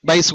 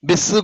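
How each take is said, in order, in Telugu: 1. అచ్చు 'eye' ధ్వని. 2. అచ్చు ఒక చిన్న 'i' ధ్వని. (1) "బైస్ బైస్ కూడా అనొచ్చు" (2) "బిస్ కూడా అవుతుంది"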